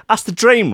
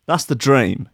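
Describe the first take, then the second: First: "dream" swooping up high and bright; excited dream. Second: Said in the usual way. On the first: Shown as a demonstration. Host hyping his latte scheme to listeners, high excited lift.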